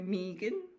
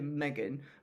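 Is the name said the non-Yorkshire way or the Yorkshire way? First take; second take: non-Yorkshire; Yorkshire. First: The name is said in a non-Yorkshire accent. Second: The name is said in a Yorkshire accent. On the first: "But people go Megan" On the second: "I say Megan because I'm from Yorkshire, so it's Megan"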